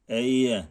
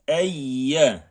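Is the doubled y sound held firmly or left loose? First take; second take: loose; firm. First: The doubled y sound is loose and weak. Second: The doubled y sound is pressed and held firmly. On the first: The speaker calls it wrong. "Böyle çok gevşek bırakmadan. Eyye değil" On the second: The speaker calls it right. "Yağının üzerine basarak"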